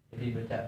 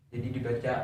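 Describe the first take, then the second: The two takes are said the same way.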